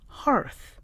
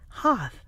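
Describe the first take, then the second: First: The word is said with an R sound. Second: The word is said without an R sound. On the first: "The American one has an R in it" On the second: "British is hearth"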